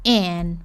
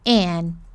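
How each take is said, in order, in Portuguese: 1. A vogal é um som curto, fechado e relaxado. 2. A vogal é um som curto, fechado e relaxado.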